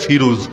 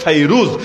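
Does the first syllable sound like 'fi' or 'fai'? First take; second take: fi; fai. First: The first syllable has a plain 'i' vowel. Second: The first syllable has an 'ai' vowel. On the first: This is the form found in Bengali books. The speaker calls it wrong. "Bangla বইয়ে লেখা ফিরুজ" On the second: This is the original form of the name. The speaker calls it right. "কিন্তু মূল নাম হলো ফাইরুজ"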